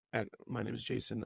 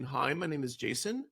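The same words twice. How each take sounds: First: Said in the usual way. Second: "Jason" ends on a rising question tune; up talk. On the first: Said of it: "up talk". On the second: Shown as a demonstration. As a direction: make "Hi, my name is Jason" sound like a question, lifting on "Jason". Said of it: "there's up talk, which is people saying".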